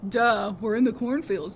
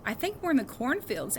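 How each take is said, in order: First: Slow loud mocking duh. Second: Said in the usual way. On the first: A narrator's reading. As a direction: roll your eyes at the obvious. Miles mocks Henry.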